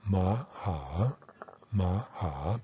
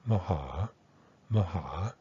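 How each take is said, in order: First: Slow "ma, ha", both vowels a full "ah"; unreduced pronunciation. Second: "maha" as one word, first vowel a short "muh"; reduced pronunciation. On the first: Teacher contrasts it with the reduced form, "ma, ha" full and separate. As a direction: say "ma" and "ha" as two separate full syllables. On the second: Teacher shows the quicker, easier form, "maha" as muh-HAH. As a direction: shrink the start of "maha" to schwa, land on "ha". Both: Shown as a demonstration. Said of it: "becomes maha".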